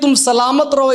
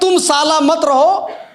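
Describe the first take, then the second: First: The word is said as one unit. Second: The word is split into two parts. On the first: It is a blessing for a safe life. The speaker calls it right. "Amitabh Bachchan साहब ने समझाया कि ऐसे नहीं है" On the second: It sounds like an insult. The speaker calls it wrong. "शब्द उन्होंने गब मतलब गलत जोड़ दिए"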